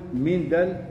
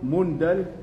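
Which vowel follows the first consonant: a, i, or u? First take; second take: i; u. First: The first vowel is an i sound. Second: The first vowel is a u sound. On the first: "بالكسر" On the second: "بالضم"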